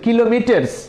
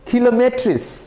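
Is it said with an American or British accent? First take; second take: American; British. First: It is said with an American accent. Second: It is said with a British accent.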